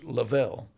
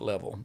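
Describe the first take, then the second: First: The name sounds like Lavelle. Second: The name sounds like the word level. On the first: This is how a smaller group with the name says it. "there is a faction of people that use Lavelle" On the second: This is how most people with the name say it. "most people that have that name pronounce it level"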